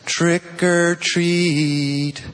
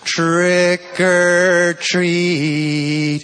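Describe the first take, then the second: First: It is said at a moderate volume. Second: It is said somewhat louder than normal.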